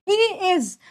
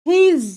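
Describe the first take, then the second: First: It is said as two separate words. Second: It is said as one contracted word. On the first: "ही इज को हम बोलते हैं हीज" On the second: "हम बोलते हैं हीज"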